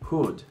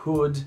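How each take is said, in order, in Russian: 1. Гласный краткий и ненапряжённый. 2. Гласный краткий и ненапряжённый.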